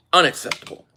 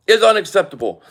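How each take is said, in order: First: Said in the usual way. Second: "Is unacceptable." repeated louder, hitting "Is". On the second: Real, not acted. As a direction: hammer it home the second time.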